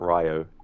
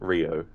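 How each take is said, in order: First: The word does not rhyme with Neo. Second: The word rhymes with Neo. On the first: The speaker calls it wrong. "not Rio" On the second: The speaker calls it right. "Now I know for sure that it's actually Rio"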